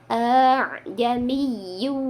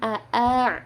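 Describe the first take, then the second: First: The second a-sound is softened and drawn out. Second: Two separate short a-sounds with a glottal break. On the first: The speaker calls it right. "a yang kedua itu dipanjangkan, agak diseret" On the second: The speaker calls it wrong. "jadi bukan a-a"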